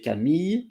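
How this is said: The name is said with a French pronunciation. "in French we say Camille"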